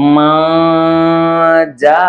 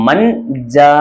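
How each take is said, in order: First: The n sound is hidden in a nasal hum. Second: The n sound is pronounced clearly and fully. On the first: The speaker calls it right. "மூக்கால மறைச்சு" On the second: The speaker calls it wrong. "அப்படிதானே ஓதி இருப்போம்"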